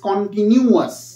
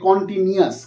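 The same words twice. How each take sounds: First: The middle 'nu' sound is clearly pronounced. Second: The middle 'nu' sound is dropped or blurred. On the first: The speaker calls it right. "Actually pronunciation is কন্টিনিউয়াস" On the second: The speaker calls it wrong. "বহু ছেলে মেয়ে এটা ভুল করে বলে"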